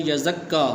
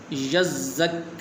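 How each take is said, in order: First: یزکا said with no doubling; quick یزکا, skipping the doubled ز; wrong pronunciation. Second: یزک with both doubled letters held, very slow; یزک said carefully with the doubled letters held; correct pronunciation. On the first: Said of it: "اس کو پڑھتے ہیں یزکا". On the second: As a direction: stretch یزک slowly, holding the doubled ز and ک. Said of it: "تو اس لفظ کو اس طرح پڑھیں گے". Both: Shown as a demonstration.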